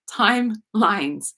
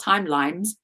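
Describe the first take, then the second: First: "timelines" drawn out slowly, clear n before the final s; careful correction. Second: "timelines" stumbled, the n slipping to an m; stumbled word. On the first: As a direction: correct yourself, saying "timelines" slowly in two clear parts. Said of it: "Not timelines". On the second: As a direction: trip over the end of "timelines". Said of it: "I always stumble on that". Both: Shown as a demonstration.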